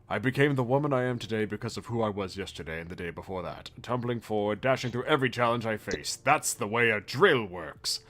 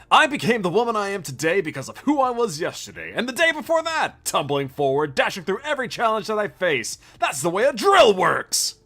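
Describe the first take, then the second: First: It is read in the speaker's plain voice. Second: It is said in a Kamina impression.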